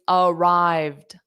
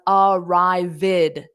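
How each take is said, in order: First: The ending adds no extra syllable. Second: The ending adds an extra "id" syllable. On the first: The speaker calls it right. "it's arrived, arrived. There's two sounds" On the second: The speaker calls it wrong. "it is not pronounced as arrived"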